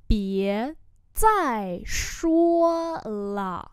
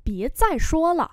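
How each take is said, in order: First: Very slow, separated syllables; word-by-word repeat; slow model pronunciation. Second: Said in the usual way. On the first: Shown as a demonstration. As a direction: hold each tone for learners. Teacher repeats phrase slowly.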